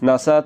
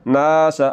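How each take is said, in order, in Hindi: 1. पहली ज़बर को छोटा रखा जाता है। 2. पहली ज़बर को लंबा खींचा जाता है। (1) "अगर ज़बर को लंबा ना किया" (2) "ज़बर को लंबा करना है"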